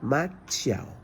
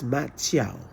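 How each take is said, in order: The two takes are said the same way.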